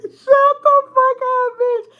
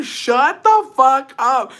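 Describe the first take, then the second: First: Very high, loud squeal through laughter; drawn-out yell while cracking up; laughing shout. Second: Loud, high, drawn-out outburst; mock-horrified yell to shut him up; retold telling-off. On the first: Retold or imitated. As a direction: squeal the retold telling-off, laughing. Repeats telling-off while cracking up. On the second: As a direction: stretch every word, loudly scandalized. Retells telling Jacobo off.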